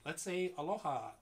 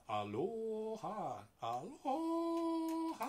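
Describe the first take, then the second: First: Said in the usual way. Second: "aloha" stretched slowly, climbing higher each time; drawn-out rising aloha. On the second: Shown as a demonstration. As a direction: sing out "aloha" slowly, going up. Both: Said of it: "So say".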